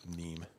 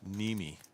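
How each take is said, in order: First: The name is said with one syllable. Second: The name is said with two syllables. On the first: The speaker calls it wrong. "I would probably pronounce it Neem" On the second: The speaker calls it right. "it's pronounced Nimi"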